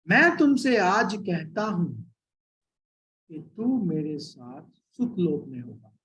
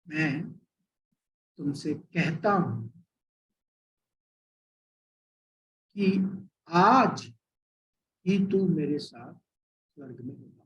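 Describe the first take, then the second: First: The pause comes after the word 'aaj'. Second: The pause comes before the word 'aaj'.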